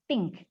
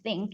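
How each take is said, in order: First: "think" said as "tink", with a hard t. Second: "think" starting with an airy th, not t; correct TH sound. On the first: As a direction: imitate the learners' mistake, "think" becoming "tink". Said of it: "biasanya Anda bacanya tuh". ("think" diucapkan "ting-k" dengan t) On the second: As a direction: say "think" with tongue between the teeth. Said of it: "Kata yang berawalan dengan huruf T H". ("think" dengan bunyi th yang benar) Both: Shown as a demonstration.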